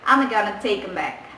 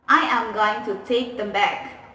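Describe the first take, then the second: First: Words are contracted and reduced to gonna. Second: Every word is said fully without contractions. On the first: "American speakers will say like this" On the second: "when they want to say the sentence like this"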